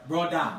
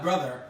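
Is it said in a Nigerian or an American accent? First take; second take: Nigerian; American. First: It is said in a Nigerian accent, like broda. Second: It is said in a standard American accent.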